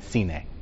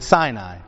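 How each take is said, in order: First: The name is pronounced in its Hebrew form. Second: The name is pronounced in its English form.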